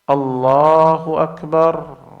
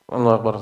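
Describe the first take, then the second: First: It is said slowly and calmly. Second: It is said quickly and abruptly.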